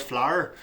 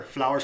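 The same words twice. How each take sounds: First: "flower" squeezed into one syllable, Northern Irish; condensed "flower". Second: Said in the usual way. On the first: Shown as a demonstration. Showing how they condense words, Northern Irish "flower" in one syllable. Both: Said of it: "They condense words".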